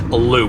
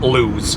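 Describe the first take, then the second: First: The name ends on a plain vowel sound. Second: The name ends with a z sound. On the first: The speaker calls it right. "I looked up the pronunciation. It is Lou" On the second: The speaker calls it wrong. "not Lewes"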